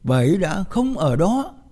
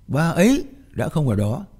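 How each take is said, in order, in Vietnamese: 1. Trọng âm rơi vào từ cuối cùng, đó. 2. Trọng âm rơi vào bà ấy. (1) "mà không nhấn mạnh vào từ nào ngoài từ sau cùng" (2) "nghĩa là cô muốn kéo sự chú ý về con người đó"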